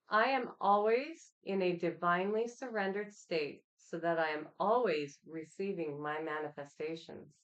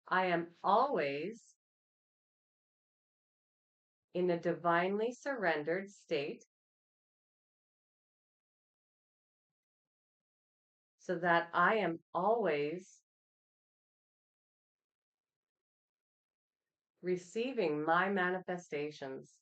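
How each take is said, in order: First: It is said at a faster pace. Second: It is said at a slower pace.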